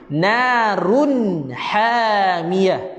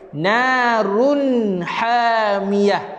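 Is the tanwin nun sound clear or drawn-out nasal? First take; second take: clear; clear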